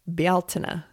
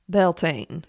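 First: It is said in an Irish pronunciation. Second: It is said in an anglicized pronunciation. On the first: The speaker calls it right. "the correct pronunciation for this word, which is an Irish word, is Bealtaine" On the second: The speaker calls it wrong. "I already told you it was incorrect"

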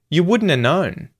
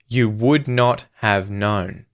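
First: 'Would not have' is squeezed into 'wouldna'. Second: Each word of 'would not have' is said separately. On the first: "it sounds like wouldna" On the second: "would not have"

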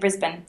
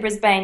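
First: It uses the local pronunciation of the name. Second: It uses the outsider pronunciation of the name. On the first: The speaker is from the city. The speaker calls it right. "you say Brisbane" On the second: The speaker is not from the city. The speaker calls it wrong. "you do not say Brisbane"

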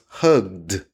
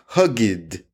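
First: The word is said the way speakers normally say it. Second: The word is read out the way it is spelled. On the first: The speaker calls it right. "but it's pronounced hugged" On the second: The speaker calls it wrong. "It looks like hugged"

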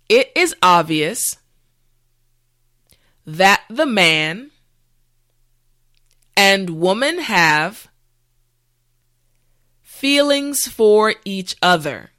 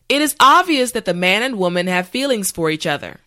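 First: The sentence is said slowly and carefully. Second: The sentence is said at natural speed. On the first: "this time repeat after me" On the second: "this time we will go at a more natural pace"

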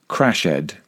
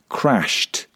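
First: The ending is said as an extra syllable. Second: The ending is a plain T sound. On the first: The speaker calls it wrong. "It's very common to hear people express these verbs phonetically" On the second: The speaker calls it right. "with a T sound at the end"

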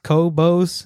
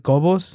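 First: The name is said with an English accent. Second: The name is said with a Spanish accent. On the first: "It's just Cobos" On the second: "if you want to say hardcore Mexican"

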